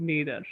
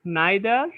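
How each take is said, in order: First: "neither" said NEE-thur, with a long "ee" vowel; "neither" as Americans say it, NEE-thur; "neither" starting like "knee": NEE-thur. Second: "neither" said NYE-thuh, with a long "eye" vowel; "neither" as British speakers say it, NYE-thuh; "neither" starting with the sound of "eye": NYE-thuh. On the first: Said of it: "neither বা either উচ্চারণ করে আমেরিকানরা". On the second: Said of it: "long করে উচ্চারণ হচ্ছে আই". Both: Shown as a demonstration.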